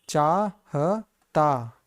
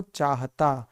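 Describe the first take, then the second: First: "चाहता" split slowly into चा, ह, ता; sounded out slowly. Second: Said in the usual way. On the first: Shown as a demonstration. Teacher showing how चाहता is read, "चाहता" slowly in syllables. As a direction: stretch "चाहता" syllable by syllable, with gaps. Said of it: "इसको पढ़ा जाता है". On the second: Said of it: "क्या पढ़ेंगे इसको?".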